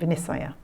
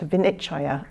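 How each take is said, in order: First: The word has a Burmese-style pronunciation. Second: The word has its standard Pali pronunciation.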